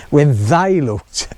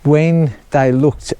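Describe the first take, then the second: First: "they" leaned on, slowly and pointedly; single out "they" with a slow, knowing emphasis; stress on THEY. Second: Said in the usual way. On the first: Shown as a demonstration. Builder hinting who is to blame, pointed stress on "they". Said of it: "I'm not saying who they is". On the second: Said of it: "notice I put".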